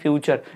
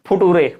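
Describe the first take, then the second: First: It is said as 'fyoo-cher' with a 'ch' sound. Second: It is said as 'fu-too-ray' with a 't' sound. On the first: The speaker calls it right. "जैसे लिखा है फ्यूचर" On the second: The speaker calls it wrong. "इसको कोई पढ़ रहा फुटूरे"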